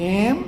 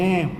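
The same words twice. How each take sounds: First: It is said as a question. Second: It is said as a statement. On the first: The speaker is asking something. "હું એમ પૂછું" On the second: The speaker is telling something. "હું એમ કહું"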